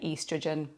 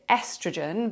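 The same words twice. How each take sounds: First: It is said with a British pronunciation. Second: It is said with an American pronunciation. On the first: "But in England, I would say estrogen" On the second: "I'm going to pronounce it estrogen because that's what it's called here"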